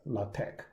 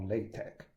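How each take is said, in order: First: LaTeX said as "lah-tek"; "LaTeX" opening on lah, ending in tek; first pronunciation variant. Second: LaTeX said as "lay-tek"; "LaTeX" opening on lay, ending in tek; second pronunciation variant. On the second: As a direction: say LaTeX with an "ay" in the first syllable. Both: Shown as a demonstration. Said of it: "people call LaTeX or LaTeX".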